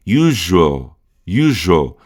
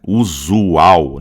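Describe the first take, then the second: First: "usual" squeezed into YOO-zhul; economized English pronunciation. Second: "usual" as full Portuguese oo-zoo-OW; every letter pronounced. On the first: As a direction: drop the middle vowel of "usual". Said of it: "A gente economiza muito aqui". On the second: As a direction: sound out all the vowels of "usual". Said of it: "a gente fala aqui todas as letras". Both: Shown as a demonstration.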